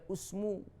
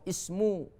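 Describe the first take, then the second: First: The word begins with a 'u' vowel. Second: The word begins with an 'i' vowel. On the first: The speaker calls it wrong. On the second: The speaker calls it right.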